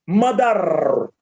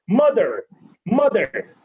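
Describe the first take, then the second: First: "mother" drawn out on a heavy final R; mispronunciation. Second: "mother" with a light, unstressed final R; corrected pronunciation. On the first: Teacher showing people's usual error, mispronunciation. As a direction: lean hard on the R ending "mother", pitch dropping. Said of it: "mispronouncing the word is". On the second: Teacher modelling after the error, corrected pronunciation. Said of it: "We are unnecessarily stressing the word R". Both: Shown as a demonstration.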